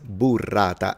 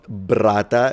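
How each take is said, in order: First: A clear U vowel comes before the R. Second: The first vowel is dropped before the R. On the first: The speaker calls it right. "it's burrata" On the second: The speaker calls it wrong. "It's not brata"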